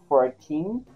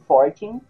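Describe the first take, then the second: First: The stress is on the second syllable. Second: The stress is on the first syllable. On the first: The speaker calls it right. "A sílaba tônica é no teen" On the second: The speaker calls it wrong. "e não fourteen"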